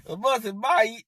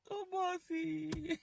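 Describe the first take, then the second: First: Louder, brisk taunting goodbye; mock farewell. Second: Higher, softer, slow sing-song tease; mock taunt. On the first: Telling the boss to leave, a louder jeering bye. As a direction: wave him off with a jeer. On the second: Mocking the boss, a higher, softer slow tease. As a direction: coo it like a sly taunt.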